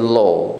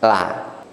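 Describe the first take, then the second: First: The syllable is heavy, with a rounded vowel. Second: The syllable is light, with an open vowel. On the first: "Sifat tebal ... berubah menjadi lo" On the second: "kalau sifatnya tipis"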